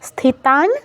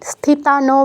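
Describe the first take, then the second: First: The final n has no vowel after it. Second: The final n is followed by a vowel. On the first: The speaker calls it right. "অটা লোপ পাবে" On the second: The speaker calls it wrong. "কেউ ন ফুল বলবো না, স্থিতান বলবো না"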